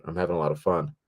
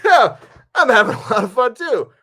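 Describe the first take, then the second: First: Low-key, sincere-sounding retold remark; earnest praise. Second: Loud, squeaky-high hammed-up delight; over-eager agreement. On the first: Actress reassures her worried director, earnest praise. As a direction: say it evenly, as an understated compliment. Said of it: "it was such a fake out". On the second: Nervous director echoes the actress's praise, over-eager agreement. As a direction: overdo the enthusiasm in a very high voice. Acted relieved reply to her praise.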